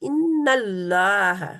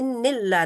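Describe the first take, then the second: First: The vowel after the double n is 'a'. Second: The vowel after the double n is 'i'. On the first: The speaker calls it right. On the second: The speaker calls it wrong.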